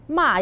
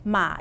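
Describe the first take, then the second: First: The pitch falls sharply from high to low. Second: The pitch dips low and then rises. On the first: It means to scold. "Ma is like I score some people" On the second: It means horse. "Ma is horse"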